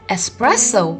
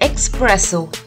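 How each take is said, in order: First: The word has an 's' sound after the first vowel. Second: The word has a 'ks' sound after the first vowel. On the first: The speaker calls it right. "but we call it espresso" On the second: The speaker calls it wrong. "We don't call it expresso"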